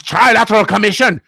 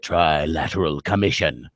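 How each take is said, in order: First: High, loud mock German accent. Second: Low, slow, menacing read; ominous. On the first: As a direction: ham up a sinister German accent. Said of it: "if you say it with a German accent". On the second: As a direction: make the name sound like a dark secret. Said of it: "when I say it". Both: Shown as a demonstration.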